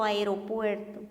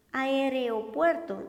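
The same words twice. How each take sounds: First: Said in the usual way. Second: Aeropuerto said slowly as "aereopuerto", with an extra e after r; wrong pronunciation. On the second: Shown as a demonstration. Teacher shows students the mistaken "aereopuerto" slowly. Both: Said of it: "y lo correcto aeropuerto".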